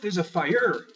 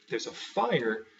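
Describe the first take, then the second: First: The stress is on the second syllable. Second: The stress is on the first syllable. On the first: The speaker calls it wrong. "Instead of putting the stress on the er" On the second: The speaker calls it right. "you have the stress on the phi"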